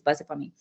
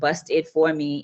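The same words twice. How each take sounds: First: The words are said fast and run together. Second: The words are said separately and clearly. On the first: "We tend to speak fast and we run our words together" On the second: "instead of saying"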